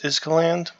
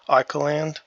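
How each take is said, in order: First: An S sound is heard in the name. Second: No S sound is heard in the name. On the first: "I think it's Iskaland, but I might be pronouncing it wrong" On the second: "like how island has an S in it, but you don't really hear it"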